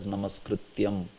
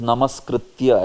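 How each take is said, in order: First: The word ends with an added m sound. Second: The word ends on an open a vowel. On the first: The speaker calls it wrong. "many of them pronounce it as namaskrityam" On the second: The speaker calls it right. "It is namaskritya actually"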